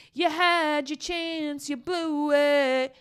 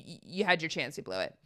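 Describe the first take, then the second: First: High, slow, stretched-out mocking chant; singsong taunt. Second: Said in the usual way. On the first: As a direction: draw every word out high, teasing. Repeats it as drawn-out taunt.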